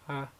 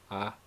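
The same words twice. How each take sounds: First: The vowel is said on a high tone. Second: The vowel is said on a mid tone. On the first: "high tone" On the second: "this is a mid-tone A"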